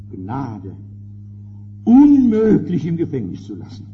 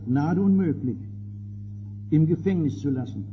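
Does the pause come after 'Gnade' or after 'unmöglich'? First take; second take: after Gnade; after unmöglich. First: The pause falls after the word Gnade. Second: The pause falls after the word unmöglich. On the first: Pardon is granted and he must be released. "setzt das Komma an eine andere Stelle, hinter das Wort Gnade" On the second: Pardon is refused and he stays in prison. "streicht das Komma nach dem Wort unmöglich aus"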